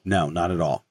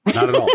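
First: Said in the usual way. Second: Laughing. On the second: Real, not acted. Repeat said through a laugh.

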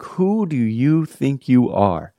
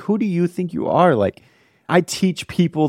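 First: Slow, indignant mock retort, rising up; retold indignation. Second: High, offended mock retort; retold indignation. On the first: Boyfriend indignant at girlfriend's question, slow mock anger. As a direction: drag it out like an offended pastor. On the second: Pastor offended by new girlfriend, higher mock indignation. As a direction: snap it back, a touch hammed-up. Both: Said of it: "I was so mad".

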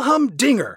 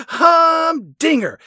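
First: Said in the usual way. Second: Humdinger, very slow, high and loud; drawn-out HUMDINGER. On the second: Retold or imitated. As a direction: stretch out both halves of humdinger, pitched way up. Moon relishes the word, repeating it.

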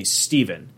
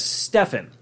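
First: "Steven" said STEE-ven; long EE and a v in "Steven"; usual pronunciation of Steven. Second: "Stefan" said STEFF-en; short e and an f in "Stefan"; misread as Stefan. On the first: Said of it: "has the same name as me". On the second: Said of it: "probably read it as Stefan". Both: Shown as a demonstration.

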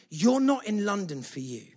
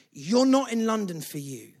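The two takes are said the same way.

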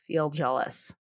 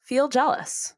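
First: Softer echo. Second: Said in the usual way. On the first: Shown as a demonstration. Echoing the advice, Feel jealous said low and soft. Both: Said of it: "You don't have to feel guilty".

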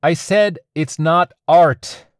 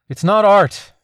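First: "I said it's not art" slow, loud and clear, "said" stressed. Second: Muffled through a balaclava. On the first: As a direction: spell out "I said it's not art" slowly, hitting "said". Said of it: "She pulled the balaclava down". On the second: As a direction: speak through cloth over the mouth. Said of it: "the balaclava muffled her voice". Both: A narrator's reading.

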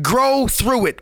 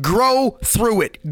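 First: Said in the usual way. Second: "grow through it" drawn out slowly, leaning on "grow"; slow, stressed grow. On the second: Shown as a demonstration. Coach urging listeners who struggle: slow, stressed "grow through it". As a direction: stretch "grow" long and heavy, each word slow. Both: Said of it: "But when you go through it".

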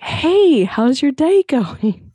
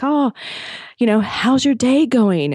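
First: Put-on very high, slow, over-the-top English accent. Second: Slow, put-on English accent, a bit higher. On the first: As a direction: ham up a chirpy English clerk's greeting. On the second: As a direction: mimic a cheery English hotel clerk, drawn out. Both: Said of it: "I can't do a proper English accent".

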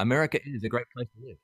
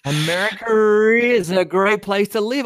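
First: "America is" with no R between the words; quickly, a clean break between "America" and "is"; extra R removed. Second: "America is" as a long, loud "Americarrr-is"; slow, high, drawn-out R between "America" and "is"; exaggerated linking R. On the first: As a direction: keep "America" ending in an open "uh" before "is". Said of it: "trying to move that extra R". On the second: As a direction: stretch the intrusive R after "America". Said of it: "We put a R in there". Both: Shown as a demonstration.

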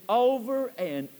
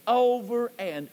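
Both takes have the same delivery.

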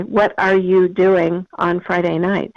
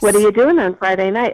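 First: "What are you doing", each word separate and slow; over-articulate "What are you doing", every word in full; careful enunciation. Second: "what are you" run together as "whaddaya"; casual connected speech. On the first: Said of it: "not this way". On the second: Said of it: "Instead, I would say". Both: Shown as a demonstration.

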